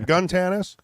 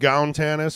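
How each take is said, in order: First: The first syllable rhymes with 'sun'. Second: The first syllable rhymes with 'town'. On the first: "it's more of a gun tannis" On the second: "Even gown tannis is acceptable"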